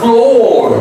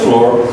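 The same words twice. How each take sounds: First: The vowel is long and stretched. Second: The vowel is short. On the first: The speaker calls it right. "it's a very long stretch sound" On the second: The speaker calls it wrong. "Don't say floor"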